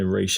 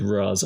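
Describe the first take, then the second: First: The name ends with a sh sound. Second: The name ends with a z sound. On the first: This is the officially correct way. The speaker calls it right. "Raish is the, the correct pronunciation" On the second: This is what most people call him. The speaker calls it wrong. "I'm going with Raz"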